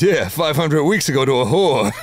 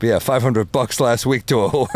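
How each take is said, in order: First: Higher, louder Rodney punchline, botched; flubbed Rodney punchline. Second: The line redone, a lighter Rodney voice; corrected Rodney punchline. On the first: Retelling Rodney's post-surgery joke, the wrong take. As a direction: blurt the line in a Rodney voice. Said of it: "I fucked the joke up". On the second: Retelling Rodney's joke, the fixed take. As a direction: land the punchline cleanly this time. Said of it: "let me redo that". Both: Retold or imitated.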